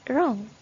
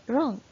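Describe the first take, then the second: No difference in how they are said.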